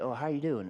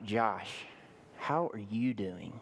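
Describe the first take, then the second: First: It is asked in a casual, offhand way. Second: It is asked in a warm, caring way.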